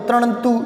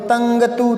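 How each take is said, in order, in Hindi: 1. t से पहले retroflex n ध्वनि आती है। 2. t से पहले velar ng ध्वनि आती है। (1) "अणे लगाओ, ... ये भी उच्चारण से सही नहीं आ रहा" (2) "अंग लगाओ, ... ऐसे नहीं आएगा, ये उच्चारण गलत हो गया"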